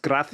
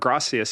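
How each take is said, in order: First: The c is said as a th sound. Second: The c is said as an s sound.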